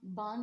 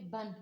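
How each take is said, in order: First: The vowel is drawn out long. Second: The vowel is kept short. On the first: The speaker calls it wrong. "बान नहीं" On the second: The speaker calls it right. "बल्कि बन"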